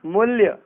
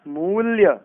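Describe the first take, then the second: First: मूल्य with a short "u"; wrong short vowel. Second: मूल्य with a long "oo"; correct long vowel. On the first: Teacher showing the error, मूल्य with short u. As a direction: say मूल्य as "mullya". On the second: Teacher correcting it, मूल्य with long oo. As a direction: say मूल्य as "moolya". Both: Shown as a demonstration. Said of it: "मूल्य नहीं".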